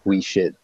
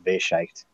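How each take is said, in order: First: The name is pronounced with English-style sounds. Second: The name is pronounced with German-style sounds. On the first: This is how the locals say it. "but we, we shit" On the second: This is the original pronunciation. "I'm pretty sure the real pronunciation is that Wescheicht"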